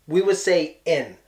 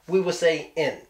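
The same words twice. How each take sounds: No difference in how they are said.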